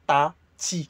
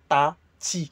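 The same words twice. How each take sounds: First: The two t sounds are pronounced differently. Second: The two t sounds are pronounced differently.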